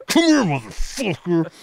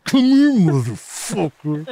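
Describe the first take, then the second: First: Mock tough guy. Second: Slow, louder higher mock threat; mock tough guy. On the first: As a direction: call him over like a bar-fight tough. Mock threat to lemon fans. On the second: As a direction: drag out the threat, hammed up. Imagined reply at the subway.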